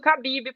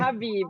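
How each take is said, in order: First: The name begins with a hard K sound. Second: The name begins with a breathy H sound. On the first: "mas eu uso Khabib, porque eu acho que o K no Brasil, K com H, é K" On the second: "a pronúncia certa é Habib"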